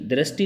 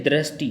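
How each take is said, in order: Both takes have the same delivery.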